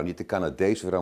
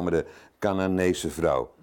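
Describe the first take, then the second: First: "Canadese" said lightly as the mistaken word; wrong word corrected. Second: "Canaanese" stressed with a falling close. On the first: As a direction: set up "Canadese" as the wrong reading. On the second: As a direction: lean on "Canaanese" to correct it. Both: Shown as a demonstration.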